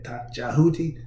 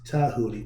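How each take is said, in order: First: The name begins with a J sound. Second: The name begins with a T sound. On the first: The speaker calls it wrong. "instead of saying" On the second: The speaker calls it right. "the D is the T sound"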